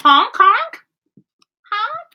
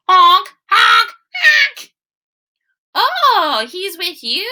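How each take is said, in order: First: Goose honks. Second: Much higher, loud honking calls; goose honks. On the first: Geese return. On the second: Geese honking to calm the mice, high and loud. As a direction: honk like a goose smoothing things over. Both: Acted.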